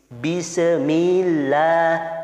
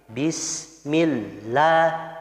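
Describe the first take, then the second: First: The 'mi' sound is drawn out long. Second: The 'mi' sound runs straight into the next syllable. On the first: The speaker calls it wrong. "mi-nya itu jadi apa namanya? Manjang" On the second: The speaker calls it right. "mi-nya langsung masuk ke lafaz Allah"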